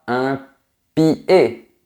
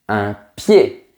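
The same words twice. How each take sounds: First: The i is a full, separate vowel. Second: The i is a quick glide into the vowel. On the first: The speaker calls it wrong. "On ne dit pas" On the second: The speaker calls it right. "on dit ... prononcé très rapidement"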